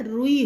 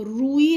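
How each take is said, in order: First: रुई with a short उ then long ई, ru-ee; correct short u. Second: रूई with a long ऊ before the ई, roo-ee; wrong long u. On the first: Teacher giving children the right form, short उ. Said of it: "रुई होता है". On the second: Teacher naming the wrong form for children, long ऊ. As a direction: lengthen the first vowel of रूई, as the wrong form. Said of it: "तो रूई नहीं होता है". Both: Shown as a demonstration.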